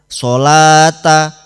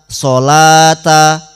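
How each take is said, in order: No difference in how they are said.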